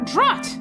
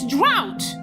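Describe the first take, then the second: First: The word is said with an 'uh' vowel. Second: The word is said with an 'ow' vowel. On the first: "Or drut!" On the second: "It's drought!"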